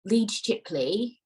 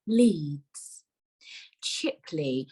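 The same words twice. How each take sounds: First: Station names run together as one, Leeds higher; drawn-out call, both names joined; train driver announcement. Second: Slow, with a long pause between Leeds and Chipley; two station names set well apart, falling tune; automated announcer. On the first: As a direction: imitate a driver calling "Leeds Chipley" without a break. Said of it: "I heard him say". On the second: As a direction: imitate an automated station announcement, each name separate. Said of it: "She said it slower". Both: Retold or imitated.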